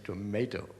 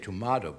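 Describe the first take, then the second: First: The word is said in an American accent. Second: The word is said in a British accent. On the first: "In America, we say tomato" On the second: "You say tomato, but that's in English"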